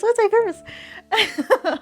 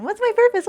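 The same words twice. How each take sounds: First: High, slow, stretched-out whine; drawn-out mock lament. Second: High, loud, dramatic self-questioning; mock existential wail. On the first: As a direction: drag the question out like a theatrical sigh. Mock existential question, repeated. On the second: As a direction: throw the question up to the sky in mock despair.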